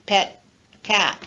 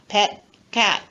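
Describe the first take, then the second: No difference in how they are said.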